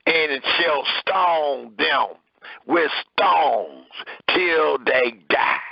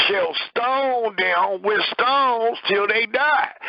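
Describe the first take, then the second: First: Said in the usual way. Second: Slow, "Shall stone them with stones till they die" lifted higher, each word weighed; heavy emphasis on the last verse. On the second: Shown as a demonstration. Preacher showing how brothers stress the final verse, slow and weighty. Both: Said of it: "putting a lot of emphasis on the last verse".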